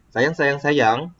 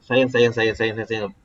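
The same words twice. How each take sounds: First: "sayang, sayang, sayang" slow, rising at the end; questioning intonation. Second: "sayang, sayang, sayang" run on in one level low tone; no intonation. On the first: Teacher recalling the question example, "sayang, sayang, sayang" slowly rising to ask. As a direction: draw out "sayang, sayang, sayang" and lift into a question. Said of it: "ah, saya tanya". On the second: Teacher mimicking toneless learners, "sayang, sayang, sayang" without any intonation. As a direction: recite "sayang, sayang, sayang" as an unvaried list. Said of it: "cakap tak ada intonasi".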